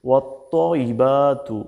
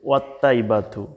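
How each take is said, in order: First: The t sound is heavy and emphatic. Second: The t sound is plain and light. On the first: The speaker calls it right. "এখানে তোয়া দিয়ে বলতে হবে" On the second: The speaker calls it wrong. "আর আমরা বলে থাকি ওয়াত্তাইবাতু"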